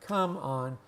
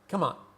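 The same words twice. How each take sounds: First: It is said slowly, with each word separate. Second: It is said quickly, with the words run together. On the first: "if we speak slowly for emphasis" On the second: "But most of us say"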